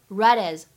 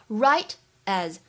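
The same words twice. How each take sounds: First: The words are linked with unaspirated t. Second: The words are said separately with aspirated t.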